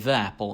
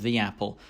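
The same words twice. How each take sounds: First: The word 'the' is said weak, like 'thuh'. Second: The word 'the' is said strong, like 'thee'.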